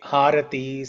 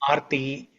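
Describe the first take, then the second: First: Three syllables, beginning with an h sound. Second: Two syllables, the middle vowel dropped. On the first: "Some people say Harati" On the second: "some people say Arti"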